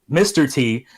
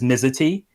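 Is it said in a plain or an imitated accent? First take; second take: plain; imitated. First: It is said in the speaker's plain accent. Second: It is said in Helena Bonham Carter's character's accent.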